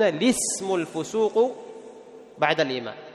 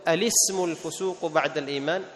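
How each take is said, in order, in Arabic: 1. تبدأ الكلمة الأولى مباشرة بـ 'li'. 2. تبدأ الكلمة الأولى بهمزة وصل بصوت 'a'. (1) "فيبدأون بماذا؟ بلام مكسورة، فيقولون" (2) "إما أن تأتي بهمزة الوصل فتقول"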